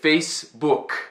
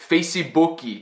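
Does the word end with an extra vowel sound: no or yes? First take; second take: no; yes. First: The word ends cleanly on the final k. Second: An extra vowel is added after the final k. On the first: The speaker calls it right. "just say Facebook" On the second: The speaker calls it wrong. "don't say Facebooky"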